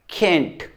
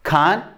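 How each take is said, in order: First: "केंट" with a flat short e; flat American "केंट"; American "can't". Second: "कांट" with a long open a; broad British "कांट"; British "can't". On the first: Teacher repeats the American "केंट". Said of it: "American बोलेगा डेंस". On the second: Teacher repeats the British "कांट". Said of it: "British बोलेगा डांस". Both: Shown as a demonstration.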